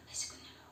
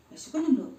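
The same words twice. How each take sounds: First: Barely voiced, very soft whisper. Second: Said in the usual way. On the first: Real, not acted. Mother asks her upset child if he is hungry, whispered. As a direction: whisper the question to a little one.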